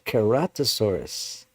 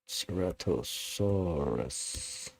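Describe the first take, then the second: First: The name begins with a K sound. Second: The name begins with an S sound. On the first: The speaker calls it right. "it's Keratosaurus" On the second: The speaker calls it wrong. "people say it with the S"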